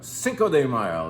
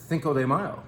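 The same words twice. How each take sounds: First: The c in Cinco is said as plain s. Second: The c in Cinco is said with a lisp. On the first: The speaker calls it right. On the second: The speaker calls it wrong.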